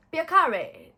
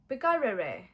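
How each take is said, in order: First: Piacere said high and loud, pya-CHE-re; right word. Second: Piccarere fumbled with an extra syllable; wrong attempt. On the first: Learner finally finding the Italian word, proudly. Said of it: "it means nice to meet you". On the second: Learner groping for the Italian for nice to meet you, fumbling. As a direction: stumble through piccarere unsure. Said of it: "something like that". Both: Shown as a demonstration.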